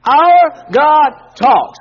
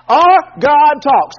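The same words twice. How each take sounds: First: Very slow, much louder, "Our" stressed; "Our God talks" drawn out and loud for the echo; slow loud call and response. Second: Very slow, louder, "Our" leaned on; "Our God talks" slow and loud with weight on "Our"; slow emphatic declaration. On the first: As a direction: lead the congregation through it word by word. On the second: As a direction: proclaim it for them to echo. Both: Shown as a demonstration. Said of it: "Say that with me".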